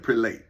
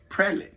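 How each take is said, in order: First: It sounds like 'pre' joined to 'late'. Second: It does not sound like 'pre' plus 'late'. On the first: The speaker calls it wrong. "I'm saying pre and late. And you put it together" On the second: The speaker calls it right. "they say prelate"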